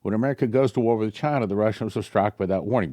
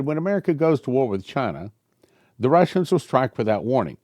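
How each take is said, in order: First: Quick re-read. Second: Prophetic reading. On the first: Shown as a demonstration. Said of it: "It may be that this is the angel talking". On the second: Acted. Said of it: "Then the man spoke again".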